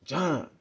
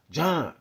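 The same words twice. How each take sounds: First: A sharp call of a name, pitched up; imitating how he said my name. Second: A sharp call of a name, pitched up and louder; imitating how he said my name. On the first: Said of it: "But the way he says". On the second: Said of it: "He says it like this". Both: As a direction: mimic the neighbour saying John.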